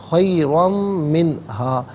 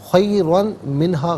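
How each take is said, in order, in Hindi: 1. n की आवाज़ नासिक m में मिल जाती है। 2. n की आवाज़ अलग से बोली जाती है। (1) "तनवीन को मीम के साथ मिलाकर मीम की आवाज़ को गुन्ने के साथ अदा करेंगे" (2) "गलत"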